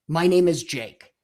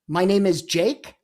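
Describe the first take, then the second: First: The voice falls at the end. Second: The voice rises at the end.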